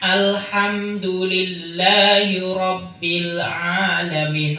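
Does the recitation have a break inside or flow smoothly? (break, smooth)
smooth. The sounds flow on without any stop. The speaker calls it right. "tidak boleh di situ ada jeda"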